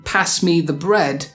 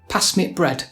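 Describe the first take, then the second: First: The word the is fully pronounced. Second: The word the becomes a glottal stop. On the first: "So instead of saying" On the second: "the definite article the is often missed out and replaced with a weird throat noise called a glottal stop"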